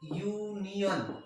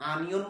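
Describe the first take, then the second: First: The word begins with a 'y' glide sound. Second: The word begins with a plain 'a' vowel. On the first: The speaker calls it right. "ইউ এর মতো হলো" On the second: The speaker calls it wrong. "আমি তো আনিয়ন বলছি না"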